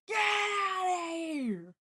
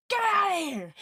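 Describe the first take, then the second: First: Very slow, stretched high yell; drawn-out shout. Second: Sudden high playful yell; mock shout. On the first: Pretend. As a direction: drag the shout out long. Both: Yelling at the lagging stream.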